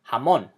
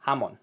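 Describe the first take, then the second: First: "jamón" corrected to ha-MON; "jamón" with weight at the end; stress on last syllable. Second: "jamón" wrongly stressed as HA-mon; stress on first syllable. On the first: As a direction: lean on the -món of "jamón". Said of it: "We emphasize the last syllable". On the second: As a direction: hit the ja of "jamón". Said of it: "But we don't say". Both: Shown as a demonstration.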